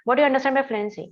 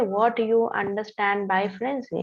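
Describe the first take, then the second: First: The sentence is spoken at a fast pace. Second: The sentence is spoken at a slow pace. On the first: "It's pretty fast" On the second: "It's very slow"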